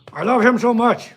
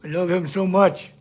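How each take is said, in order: First: Gushing through gritted teeth, pitched up; cute aggression. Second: Said in the usual way. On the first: Real, not acted. Owner gushing over his dog, teeth-gritting cute aggression. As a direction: squeeze it out, overcome by how cute he is. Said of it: "grit your teeth because something so cute".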